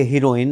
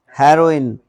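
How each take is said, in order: First: हीरोइन starting 'hee-ro', long 'ee'; wrong pronunciation. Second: हेरोइन starting with a short 'he', louder; correct pronunciation. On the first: Teacher warning against the common reading, wrong pronunciation. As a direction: misread हीरोइन as 'HEE-ro-in'. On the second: Teacher modelling the word for female lead, correct pronunciation. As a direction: punch हेरोइन as 'HEH-ro-in'. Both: Shown as a demonstration. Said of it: "हीरोइन नहीं है".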